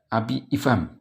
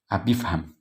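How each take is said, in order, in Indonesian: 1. Hamzah sebelum ifham dilafalkan terpisah. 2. Hamzah dihilangkan dan kedua kata menyatu. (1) "Enggak abi ifham gitu, enggak" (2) "Melebur hamzah wasalnya"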